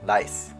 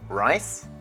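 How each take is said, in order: First: The word starts with an L sound. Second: The word starts with an R sound. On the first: The speaker calls it wrong. "how did some people pronounce it? ... rice sounds like lice" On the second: The speaker calls it right.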